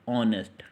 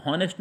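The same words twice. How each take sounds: First: ऑनेस्ट begun on an open O, no H; silent H. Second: हॉनेस्ट mispronounced with its silent H spoken; wrong pronunciation, H sounded. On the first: Teacher models the correct word for students, ऑनेस्ट with silent H. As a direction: say ऑनेस्ट starting straight on the vowel. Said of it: "इसको हम क्या बोलेंगे". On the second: Teacher shows students the mistaken reading, हॉनेस्ट with H voiced. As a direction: say हॉनेस्ट with an audible H at the start. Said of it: "हॉनेस्ट नहीं". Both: Shown as a demonstration.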